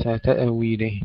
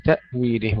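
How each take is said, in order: First: تأويله with an echo vowel after hamza; wrong bouncing hamza. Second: تأويله with a clean stop on hamza; still silent hamza. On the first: Tajweed teacher showing the error, bounced hamza in تأويله. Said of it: "وليس". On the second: Tajweed teacher contrasting for students, unbouncing hamza in تأويله. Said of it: "ننتبه ألا نقلقل الهمزة". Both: Shown as a demonstration.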